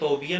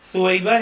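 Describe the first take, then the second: First: The b sound comes before the y sound. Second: The y sound comes before the b sound. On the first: The speaker calls it wrong. "अक्सर लोग इसको सोबिया कहते हैं, हालांकि ये सोबिया नहीं" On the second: The speaker calls it right. "पहले या है फिर बा"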